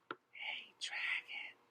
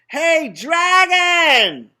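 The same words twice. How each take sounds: First: It is whispered very softly. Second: It is shouted very loudly.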